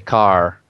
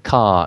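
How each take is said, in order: First: It ends with an R sound. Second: It ends without an R sound.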